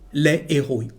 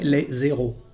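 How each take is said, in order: First: The s of les is silent, with no link. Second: The s of les links as z into héros. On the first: The speaker calls it right. "there is no liaison between the two words and the correct pronunciation is les héros" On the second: The speaker calls it wrong. "We can't say les héros"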